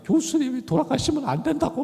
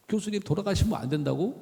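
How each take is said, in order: First: Tearful plea. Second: Said in the usual way. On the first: Retold or imitated. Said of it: "막 그러면서 울었던 거예요".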